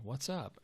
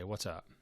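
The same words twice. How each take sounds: First: It sounds like a genuinely curious question. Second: It sounds like a curt, uninterested statement. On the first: The asker wants to know the answer. "because you're asking a question and you want to know the answer" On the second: The asker does not care about the answer. "Like, what do you want?"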